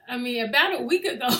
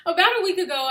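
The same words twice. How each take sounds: First: Giggling through the line; can't get it out for laughing; flubbed take, laughing; laughing retake. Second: Higher, louder, pulling it together; composed restart after laughing; refocused retake. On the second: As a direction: reset and deliver it straight. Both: Real, not acted. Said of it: "focus, [name]".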